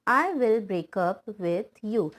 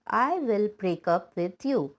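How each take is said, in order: Both takes have the same delivery.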